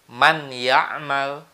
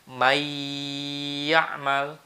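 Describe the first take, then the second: First: The n is pronounced clearly before the y. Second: The n merges into y with a long nasal. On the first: The speaker calls it wrong. "itu lebih salah lagi" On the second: The speaker calls it right. "harus digunnahkan atau ditekan dua harokat"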